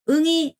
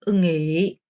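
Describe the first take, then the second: First: The word is said on a level tone. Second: The word is said with a dipping tone. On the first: The speaker calls it wrong. "이게 하면 안 되고요" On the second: The speaker calls it right. "응의라는 표현을 사용하셔야 됩니다"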